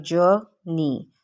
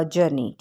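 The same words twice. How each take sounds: First: journey split slowly in two, stress on the first syllable. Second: Said in the usual way. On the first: Shown as a demonstration. Teacher showing where stress falls, journey split with first syllable stressed. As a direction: say journey as "jur... nee", first part stressed. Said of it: "पे जो है वो stress डाला गया". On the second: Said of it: "ये पूरा word है".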